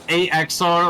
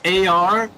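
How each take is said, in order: First: The name is spoken as three letters, A X R. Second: The name is spoken as two letters, A R. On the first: The speaker calls it wrong. "not A X R" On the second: The speaker calls it right. "it is just A R apparently"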